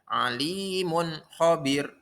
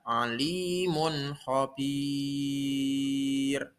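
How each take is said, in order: First: The final vowel of khabir is short. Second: The final vowel of khabir is drawn long. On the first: The speaker calls it wrong. "Tidak boleh alimun khabir. Salah" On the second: The speaker calls it right. "Harus pan panjang enam ketukan"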